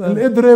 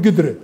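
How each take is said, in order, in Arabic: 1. تبدأ الكلمة بهمزة. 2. تبدأ الكلمة بصوت القاف. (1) "كلمة واحدة بحب ألفظها بالإدرة" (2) "بقدرش أقول قدرة"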